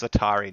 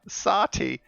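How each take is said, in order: First: "Satari" in three syllables, stress on TA; corrected "Satari", rhyming with Atari; corrected name. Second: "Sati" with two syllables, ending in tee; fumbled name said as "Sati", middle syllable dropped; mispronounced name. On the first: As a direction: say "Satari" in full, ending in ree. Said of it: "No, it's Satari now". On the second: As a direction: say "Sati" high, missing the R. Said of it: "I can't pronounce things for nuts". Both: Real, not acted.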